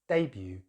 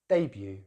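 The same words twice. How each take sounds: First: The stress is on the first syllable. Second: The stress is on the first syllable.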